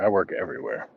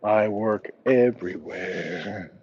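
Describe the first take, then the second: First: Said in the usual way. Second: Slow, stretched "everywhere"; drawn-out repeat. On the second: Pretend. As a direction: draw out "I work everywhere" word by word, playfully. Repeats his answer drawn out for effect.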